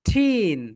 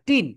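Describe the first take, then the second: First: The t has a strong puff of air. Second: The t is plain, without a puff of air. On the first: The speaker calls it right. "এটাকে বলা হয় ঠিন" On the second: The speaker calls it wrong. "টিন না"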